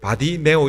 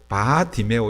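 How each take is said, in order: First: The name runs together as one unit. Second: The name is split after the first syllable. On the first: It is heard as a single personal name. The speaker calls it wrong. "의도적으로 바디메오 이렇게 하면 안 되고" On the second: It means son of Timaeus. The speaker calls it right. "바디메오 이렇게 불러야 이렇게 정상적으로 부르는 거예요"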